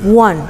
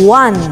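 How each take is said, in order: First: The word is said flatly, without emphasis. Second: The word is said with strong emphasis. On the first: "la pronunciación de one es one" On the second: "si le das énfasis en la sílaba, diría"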